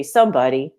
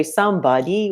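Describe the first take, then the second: First: "somebody" quicker, stressed on "some"; SOME-body, letting "body" go light; natural stress on somebody. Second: "somebody" with a forced, raised beat on "body"; wrong stress on somebody. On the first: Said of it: "we say somebody". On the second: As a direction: exaggerate the wrong syllables in "somebody". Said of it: "we don't say somebody". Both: Shown as a demonstration.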